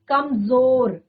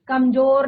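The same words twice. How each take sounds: First: The middle consonant is a z sound. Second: The middle consonant is a plain j sound. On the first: The speaker calls it right. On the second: The speaker calls it wrong.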